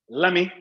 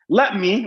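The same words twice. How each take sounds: First: The two words blend into one short word. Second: Both words are said fully and separately.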